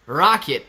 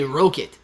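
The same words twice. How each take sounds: First: Rocket with an open "ah" vowel; slow "rocket", said as RAH-kit; your rocket. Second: Rocket with a long "oh" vowel. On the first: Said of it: "Okay, you say rocket". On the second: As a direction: say "rocket" as ROH-kit. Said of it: "I say rocket". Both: Shown as a demonstration.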